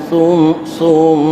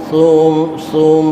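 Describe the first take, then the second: The two takes are said the same way.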